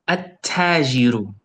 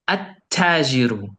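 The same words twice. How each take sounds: Both takes have the same delivery.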